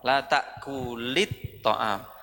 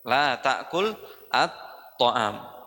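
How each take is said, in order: First: The words are joined by a linking vowel. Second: The words are said separately, without joining. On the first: "mau disambung berarti baca la ta'kulit ta'am" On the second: "Tapi kalau tidak disambung la ta'kul at-ta'am"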